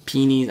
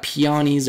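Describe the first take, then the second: First: Peonies as PEE-neez; two-syllable pronunciation. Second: Peonies as pee-AH-neez; three-syllable pronunciation. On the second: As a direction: say peonies with a stressed AH in the middle. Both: Shown as a demonstration. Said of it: "not even sure how to pronounce this".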